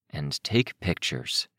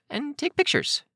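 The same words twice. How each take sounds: First: Said in the usual way. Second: Put-on very high girl voice; high-pitched young character; child's excuse. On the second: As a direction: tack it on in a high voice. Child's excuse, then echoed by narrator.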